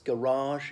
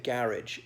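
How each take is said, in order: First: The word is said in an American accent. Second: The word is said in a British accent. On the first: This is how American speakers say it. "that's garage in American pronunciation" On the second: This is how British speakers say it. "we'd say a garage sale"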